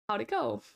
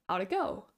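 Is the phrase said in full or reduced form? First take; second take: reduced; reduced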